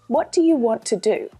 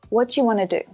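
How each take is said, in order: First: It is said slowly and carefully. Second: It is said quickly at a natural pace.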